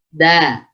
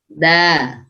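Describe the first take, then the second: No difference in how they are said.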